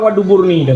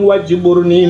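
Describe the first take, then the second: First: A d sound comes before -burni. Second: A j sound comes before -burni. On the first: Refers to one's backside. The speaker calls it wrong. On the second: Asks God to mend one's shortcomings. The speaker calls it right.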